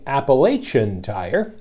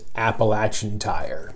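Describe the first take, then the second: First: Appalachian is said the way Californians say it. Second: Appalachian is said the way local Virginians say it. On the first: The speaker calls it wrong. "you're mispronouncing that word on Appalachian Tire" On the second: The speaker calls it right. "so I had to re-record the spot"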